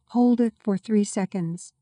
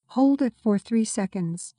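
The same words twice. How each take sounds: The two takes are said the same way.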